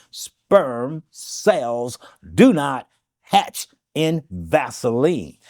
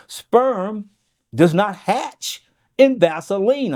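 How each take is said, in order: First: Word by word, with long gaps; very slow. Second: Said in the usual way. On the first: Shown as a demonstration. Repeating a health claim for listeners, very slowly. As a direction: spell it out slowly, each word set apart. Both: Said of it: "I'll say this slowly".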